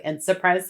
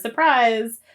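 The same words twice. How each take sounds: First: Said in the usual way. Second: Sing-song higher surprise; spring the punchline, higher and louder; mock surprise. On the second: Mocking the show's twist, a higher sarcastic surprise. Mock reveal of stuck turnstile.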